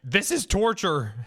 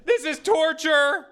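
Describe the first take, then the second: First: Drawn-out, high-pitched mock protest; mock outcry. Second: Very high, loud, drawn-out mock wail; hammed-up shriek. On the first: Streamer imitating stream chat protesting, mock outcry. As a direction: cry it out like an outraged onlooker. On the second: Streamer imitating horrified stream chat, hammed-up shriek. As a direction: wail in exaggerated horror as the outraged chat. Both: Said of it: "chat like".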